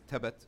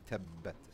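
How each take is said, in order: First: The b sound is short and single. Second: The b sound is held and doubled. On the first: The speaker calls it wrong. "this example is tabat" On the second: The speaker calls it right. "the correct pronunciation would be tabbat"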